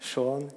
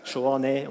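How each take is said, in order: First: The final e is left silent at the end. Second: The final e is sounded at the end. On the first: The speaker calls it right. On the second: The speaker calls it wrong.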